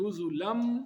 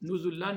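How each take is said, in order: First: The final n merges into an m sound. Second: The word ends with a clear n sound. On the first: The speaker calls it right. "नून वो मीम में मुदगम हो जाएगी, तो नुज़ुलम मिन पढ़ेंगे" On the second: The speaker calls it wrong. "नुज़ुलन नहीं पढ़ेंगे"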